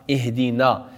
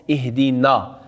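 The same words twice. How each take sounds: The two takes are said the same way.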